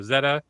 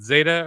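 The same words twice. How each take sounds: First: "Zeta" as ZEH-tuh; first vowel of "Zeta" like "bed"; short E pronunciation. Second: "Zeta" as ZAY-tuh; first vowel of "Zeta" like "day"; long A pronunciation. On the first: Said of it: "How do you pronounce it?". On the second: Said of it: "did I say it right?". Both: Shown as a demonstration.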